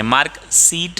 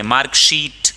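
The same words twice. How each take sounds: First: "सीट" with s and a long ee; wrong s sound. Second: "शीट" with sh and a long ee; sh and long vowel. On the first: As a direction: say "सीट" with s instead of sh. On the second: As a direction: open "शीट" on sh, then stretch it. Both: Shown as a demonstration. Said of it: "नहीं बोलेंगे".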